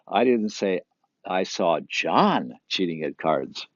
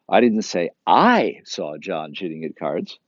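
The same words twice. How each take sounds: First: The word John is stressed. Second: The second word I is stressed. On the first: Somebody else was cheating. "It wasn't John" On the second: Someone else saw it. "Someone else saw"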